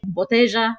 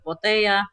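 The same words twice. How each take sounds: First: The double L sounds like a J. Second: The double L does not sound like a J. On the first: This is how it is said locally. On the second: This is how it is said elsewhere.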